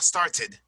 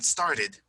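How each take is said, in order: First: "started" with a full hard t before ed; untapped T. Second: "started" with the middle t softened to a quick tap; tapped T. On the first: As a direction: say "started" as star-TED, t fully released. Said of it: "why it's not started". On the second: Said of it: "a little type of T". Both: Shown as a demonstration.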